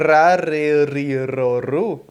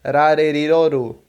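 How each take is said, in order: First: "Rareriroru" slowly, every R trilled; slow, heavy trills through "Rareriroru"; Faustão's rolled R. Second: "Rareriroru" with light tapped R's, as in "arara"; single-tap R. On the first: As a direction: roll each R in "Rareriroru" at length. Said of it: "fazer que nem o Faustão". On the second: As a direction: tap each R of "Rareriroru" once. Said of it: "o R como em arara". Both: Shown as a demonstration.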